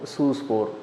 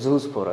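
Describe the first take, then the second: First: The word begins with an s sound. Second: The word begins with a z sound. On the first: The speaker calls it wrong. "சூஸ்போர் அப்படின்னு சொல்லிட்டு" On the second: The speaker calls it right. "அது செட்னு வரணும், அது ஜூஸ்போர்னு நீங்கள் அதை pronounce பண்ணணும்"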